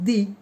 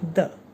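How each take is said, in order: First: It ends in a long 'ee' vowel. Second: It ends in a short, weak 'uh' vowel. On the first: The next word begins with a vowel sound. "the utterance begins with vowel sound" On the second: The next word begins with a consonant sound. "the utterance of that subject begins with consonant sound"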